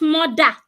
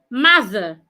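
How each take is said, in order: First: The middle th sound is replaced by another sound. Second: The middle th sound is clearly pronounced. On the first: The speaker calls it wrong. "not mother" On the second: The speaker calls it right. "It has th also. Stick out your tongue"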